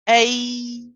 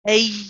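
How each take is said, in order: First: The sound is fully voiced without added breath. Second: The sound is mixed with audible breath. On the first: The speaker calls it right. "we pronounce this as a" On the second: The speaker calls it wrong. "it's mixed with the breath"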